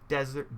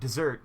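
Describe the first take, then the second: First: It sounds like the word desert, dry land. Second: It sounds like the word dessert, sweet food. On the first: The speaker calls it wrong. "not Desert" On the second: The speaker calls it right. "two S's"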